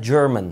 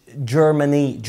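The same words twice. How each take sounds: First: "German" in two syllables, no final ee; correct German. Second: "Germany" drawn out slowly with final ee; wrong word Germany. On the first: Teacher naming the language subject, "German" pronounced correctly. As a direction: end "German" on the n. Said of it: "اسمها German، مش Germany". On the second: Teacher showing the mistake, "Germany" stretched slowly. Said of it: "مش Germany". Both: Shown as a demonstration.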